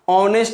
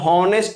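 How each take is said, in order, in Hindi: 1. यह शब्द सीधे स्वर की आवाज़ से शुरू होता है। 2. इस शब्द की शुरुआत में साफ़ H की आवाज़ है। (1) "इसका ओरिजिनल जो साउंड आएगा वह क्या आएगा, ऑनेस्ट आएगा, जो कि ओ आ रहा है" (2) "बहुत बच्चे इसको हॉनेस्ट पढ़ देते हैं, जो कि बिल्कुल गलत है, क्योंकि हॉनेस्ट पढ़ोगे तो साउंड ह आ जाएगा"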